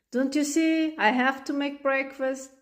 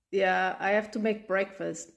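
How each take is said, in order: First: Exasperated. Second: Said in the usual way. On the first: Acted. Mom repeats, exasperated.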